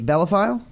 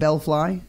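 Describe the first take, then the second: First: The name ends with a 'file' sound. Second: The name ends with a 'fly' sound. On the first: The speaker calls it wrong. "Did I say it right?" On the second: The speaker calls it right. "There we go"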